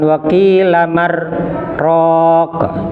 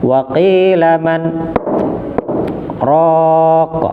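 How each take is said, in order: First: The n merges into the following r sound. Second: The n is pronounced clearly before the r. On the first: The speaker calls it wrong. "jangan dibaca seperti idgham bila gunnah. Jadi bukan" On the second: The speaker calls it right. "berarti nunnya dibaca jelas"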